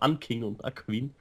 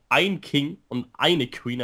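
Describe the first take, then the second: First: The articles are said in Bavarian form. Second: The articles are said in standard German form. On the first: "Das ist bayerisch, der bayerische Akzent" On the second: "Das heißt eigentlich ein King und eine Queen"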